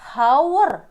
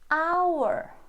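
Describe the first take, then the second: First: The word begins with an audible h sound. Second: The word begins directly with a vowel sound. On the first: The speaker calls it wrong. "Ini tidak dibaca hour" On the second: The speaker calls it right. "dibaca hour, hour"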